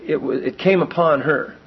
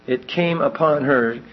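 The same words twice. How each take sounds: First: Came stressed. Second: Slow, with the word came leaned on; slow stress on came. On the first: Preacher explaining passive voice, stress on came. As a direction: it came upon her, leaning on came. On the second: Repeating for the congregation, slow stress on came. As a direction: let came carry the weight, slowly. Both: Shown as a demonstration. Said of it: "it's in the passive voice here".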